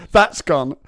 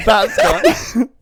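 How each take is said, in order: First: Said in the usual way. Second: Louder, higher comic repeat. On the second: Shown as a demonstration. Comic repeating a punchline, louder and higher. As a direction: punch That's gone up and loud. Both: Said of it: "a time that my dad disappointed me".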